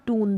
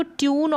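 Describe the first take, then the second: First: टून without a glide, "toon"; oo pronunciation. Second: ट्यून with a y-glide, "tyoon"; yoo pronunciation. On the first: Teacher giving the other way, टून as "toon". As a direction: say टून with only "oo". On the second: Teacher giving one of two ways, ट्यून as "tyoon". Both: Shown as a demonstration. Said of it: "दोनों तरीके से".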